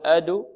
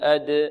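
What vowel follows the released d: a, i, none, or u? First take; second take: u; none. First: The d is released into a u-like vowel. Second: The d is released with no vowel color. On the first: The speaker calls it wrong. "لا نقول أدو" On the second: The speaker calls it right. "بل أد"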